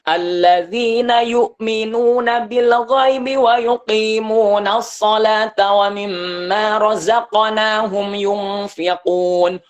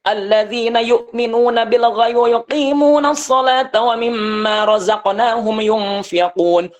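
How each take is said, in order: First: The recitation is delivered at a medium pace. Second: The recitation is delivered at a fast pace. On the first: "sedang. Jadi tidak lambat, tidak cepat" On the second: "Cepat gitu ya"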